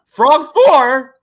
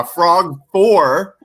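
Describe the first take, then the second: First: High, loud outburst of glee; high-pitched fanboy yell; excited exclamation. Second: Said in the usual way. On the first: Real, not acted. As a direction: shout it out like a thrilled fan. Repeats it, excitedly shouted.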